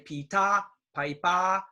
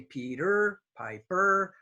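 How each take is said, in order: First: The word endings have no R sound. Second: The word endings have a clear R sound. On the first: The speaker calls it wrong. "If you say pita, pipa, that's minus ten" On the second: The speaker calls it right. "good R sound"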